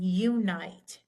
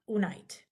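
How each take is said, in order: First: The vowel is long and says its name. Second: The vowel is short and does not say its name. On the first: The speaker calls it right. "and unite" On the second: The speaker calls it wrong. "not unite"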